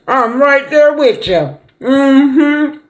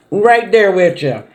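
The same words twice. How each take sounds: First: Much higher and slow, beaming "I'm right there with you"; eager agreement. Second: Said in the usual way. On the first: Real, not acted. Mom eagerly accepting her son's Super Bowl invite, high and delighted. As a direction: lift it high and drawn out, delighted to be asked.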